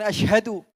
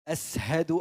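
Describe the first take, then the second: First: The middle consonant is a 'sh' sound. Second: The middle consonant is an 's' sound. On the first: This is the standard fluent pronunciation. The speaker calls it right. "bukan asyhadu" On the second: This is how a companion with less fluent speech said it. The speaker calls it wrong. "as, sin, bukan shin"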